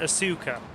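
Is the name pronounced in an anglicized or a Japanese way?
anglicized. The name has an anglicized, non-Japanese pronunciation. The speaker calls it wrong. "This game pronounces it Asuka"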